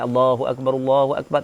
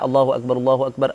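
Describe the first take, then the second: First: It is said slowly and drawn out. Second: It is said quickly without lingering.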